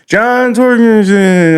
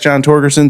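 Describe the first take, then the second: First: The surname ends with a 'gensen' sound. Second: The surname ends with a 'gerson' sound. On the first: The speaker calls it wrong. "my name gets mispronounced" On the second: The speaker calls it right. "it's John Torgerson"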